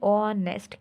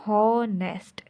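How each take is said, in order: First: The word begins with a vowel sound. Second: The word begins with an h sound. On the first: The speaker calls it right. "लेकिन हम पढ़ रहे हैं ऑनेस्ट" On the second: The speaker calls it wrong. "हमें पढ़ना चाहिए हॉनेस्ट"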